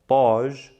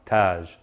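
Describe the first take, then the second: First: It begins with a heavy, emphatic t sound. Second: It begins with a plain, light t sound. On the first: "if I replace the T with a ta" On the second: "Taj means crown"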